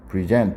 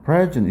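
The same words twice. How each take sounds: First: The stress is on the second syllable. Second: The stress is on the first syllable. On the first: It means to give, submit, or present something. "뒤에 발음이 강세가 있죠" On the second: It means a gift, the present time, or being present. "present 이렇게 발음되면요"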